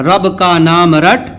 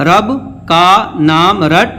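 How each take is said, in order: First: "رب کا نام رٹ" run together as one phrase; "رب کا نام رٹ" in one connected flow; fluent reading. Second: "رب کا نام رٹ" with a gap after "رب"; "رب", pause, then "کا نام رٹ" spaced out; word-by-word reading. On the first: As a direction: read "رب کا نام رٹ" straight through without breaks. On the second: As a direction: separate each word of "رب کا نام رٹ" for learners. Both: Shown as a demonstration. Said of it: "اب اس کو روانے پڑھتے ہیں".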